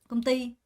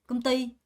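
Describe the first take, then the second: First: The stress falls on the second syllable. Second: The same.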